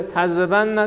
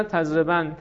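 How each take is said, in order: First: "تضربن" as tazrebanna, doubled n and final "a"; heavy emphatic nun. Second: "تضربن" as tazreban, shut on the n; light emphatic nun. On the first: Teacher repeating the conjugation, heavy form first, "تضربن" as tazreban-na. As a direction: open "تضربن" out onto -na. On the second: Teacher repeating the conjugation, light form second, "تضربن" as tazreban. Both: Shown as a demonstration. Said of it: "خفیف و ثقیل است".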